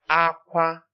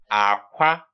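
First: Both syllables are said on a high tone. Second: The first syllable is low, the second high. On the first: It means cry. "the next one is high tone" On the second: It means egg. "the next one is actually low tone, high tone"

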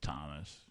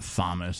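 First: The name begins with a plain 't' sound. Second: The name begins with a 'th' sound. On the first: It is the accepted pronunciation. The speaker calls it right. "it's Thomas" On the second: It is a guess from reading the spelling. The speaker calls it wrong. "It's not Thomas"

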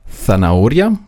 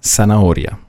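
First: The z is pronounced like English th. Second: The z is pronounced like a sharp s. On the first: This is how it is said in Spain. "Also würden die Spanier sagen" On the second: This is how it is said in South America. "Die Südamerikaner würden sagen"

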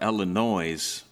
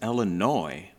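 First: It is said the way outsiders pronounce it. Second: It is said the way locals pronounce it.

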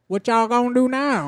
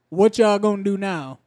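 First: It is said in a Southern honky-tonk accent. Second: It is said in the speaker's plain accent.

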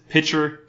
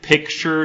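First: The word drops the middle 'k' sound. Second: The word keeps a 'k' sound in the middle. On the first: This is a grandmother's regional way of saying it. The speaker calls it wrong. "she says pitcher" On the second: This is the usual way to say it. The speaker calls it right. "Instead of saying like picture"

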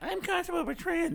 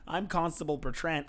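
First: It is said in a silly put-on voice. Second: It is said in a normal speaking voice. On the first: The line is mocked by repeating it back. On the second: The original line is said sincerely.

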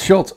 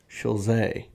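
First: The name ends sharply in a ts sound. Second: The name ends with an extra final vowel sound. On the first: The speaker calls it right. "It's just Schultz" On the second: The speaker calls it wrong. "That's how you say it? No"

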